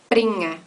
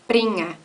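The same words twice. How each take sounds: No difference in how they are said.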